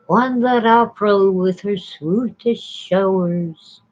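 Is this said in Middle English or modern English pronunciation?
Middle English. It is pronounced the Middle English way.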